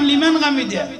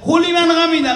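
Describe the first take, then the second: First: The phrase starts directly with 'liman'. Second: A separate 'hu' sound comes before 'liman'. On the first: The speaker calls it right. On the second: The speaker calls it wrong.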